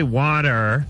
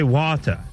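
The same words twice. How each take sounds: First: The word ends with a clear r sound. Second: The word ends with an open ah sound. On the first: "They don't say water" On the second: "they put that stinking A where the R should be"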